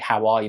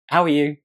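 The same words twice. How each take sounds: First: It sounds worried and concerned. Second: It sounds light and casual. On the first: The asker senses something is wrong. "the tone, what they're really asking is like, "Are you are you okay?"" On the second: It is an ordinary greeting, as if nothing happened. "She just did what any mum would do"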